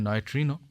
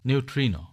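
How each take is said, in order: First: The first syllable sounds like 'noy'. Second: The first syllable sounds like 'new'.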